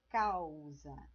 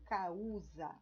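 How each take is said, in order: First: The a and u are joined in one syllable. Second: The a and u are split into separate syllables. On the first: The speaker calls it right. "eu falo causa. Então, eu não separo o A do U" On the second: The speaker calls it wrong. "Eu não falo causa"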